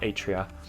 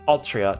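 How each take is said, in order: First: No L sound comes before the T. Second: An L sound comes before the T. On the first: The speaker calls it wrong. "not Atria" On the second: The speaker calls it right. "let me make sure I'm actually getting it right"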